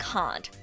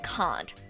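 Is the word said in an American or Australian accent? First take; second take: Australian; Australian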